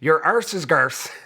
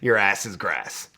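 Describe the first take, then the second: First: It uses British Isles forms, arse and garse. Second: It uses North American forms, ass and grass.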